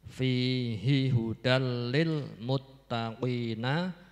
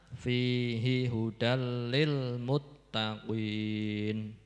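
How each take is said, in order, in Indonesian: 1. Frasa itu berakhir dengan bunyi vokal. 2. Frasa itu berakhir pada konsonan, tanpa vokal.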